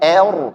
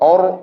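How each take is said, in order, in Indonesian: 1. Vokalnya terlalu dipipiskan, seperti 'e'. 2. Vokalnya gelap dan membulat seperti 'o'. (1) "jangan berlebihan tipiskan, er, salah" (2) "jangan or or o, salah"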